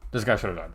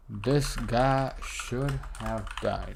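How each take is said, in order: First: Said in the usual way. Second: Very slow, stretched, like typing as you speak; drawn-out dictation. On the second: Shown as a demonstration. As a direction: read each word out at typing speed. Dictating a print message while typing.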